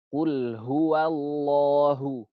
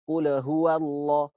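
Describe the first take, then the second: First: The l sound is held for a medium length. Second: The l sound is cut off with no length. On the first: The speaker calls it right. "beri zaman tapi pertengahan" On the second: The speaker calls it wrong. "Kalau itu habis"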